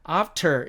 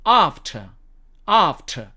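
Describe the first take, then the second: First: American "after" with r sounded; American "after", front a; American accent. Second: British "after" with silent r; British "after", long ah, no r; British accent. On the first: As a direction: say "after" as "aff-ter", American. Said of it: "이게 아니고". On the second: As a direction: say "after" as British "ahf-tuh". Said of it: "R은 발음하지 않는다고". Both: Shown as a demonstration.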